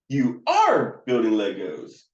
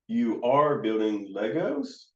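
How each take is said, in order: First: It sounds like a statement. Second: It sounds like a question.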